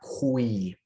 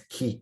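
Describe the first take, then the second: First: It is said with a w after the k. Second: It is said as k plus ee, no w. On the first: The speaker calls it wrong. "not qui" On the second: The speaker calls it right. "It's ki"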